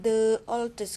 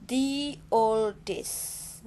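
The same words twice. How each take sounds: First: 'The' is said with a short uh vowel. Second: 'The' is said with a long ee vowel. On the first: "Kok enggak the oldest?" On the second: "ya ini ada bertemu dengan huruf vokal O, ya. Maka the di sini Budia baca the"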